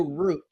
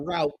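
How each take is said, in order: First: "route" rhyming with boot; route said as "root". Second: "route" said as "rowt"; route rhyming with out. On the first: Preacher offers one way to say it, "route" as "root". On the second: Preacher offers the other way to say it, "route" as "rowt". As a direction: say "route" to rhyme with shout. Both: Shown as a demonstration. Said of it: "however you want to say it".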